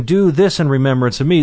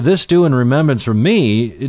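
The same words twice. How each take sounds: First: "this" leaned on with a rising tune; stress on this. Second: "do" lifted and leaned on; stress on do. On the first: Preacher insisting on that particular Passover rite, stressing "this". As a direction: hit "this" hard to mark that particular thing. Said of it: "Do that particular thing". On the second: Preacher asking what Christ meant, stressing "do". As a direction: put the weight on "do". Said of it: "do what is the question?". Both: Shown as a demonstration.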